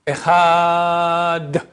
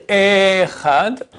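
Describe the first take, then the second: First: "Echad" with short E and long held a; right "Echad", level sustained a before d; short E, long ending. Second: "Echad" with the opening E drawn out; wrong "Echad", first syllable stretched; long first E. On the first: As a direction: stretch only the second syllable of "Echad". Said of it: "faire attention que le E soit pas long". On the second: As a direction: hold the E of "Echad", short ending. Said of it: "faut pas dire". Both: Shown as a demonstration.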